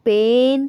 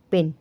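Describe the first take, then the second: First: पेन said with a short plain e, the wrong vowel for this word; wrong pronunciation pointed out by teacher. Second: Said in the usual way. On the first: Shown as a demonstration. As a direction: deliberately mispronounce पेन as a plain short pen. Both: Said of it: "पेन तो नहीं बना ना".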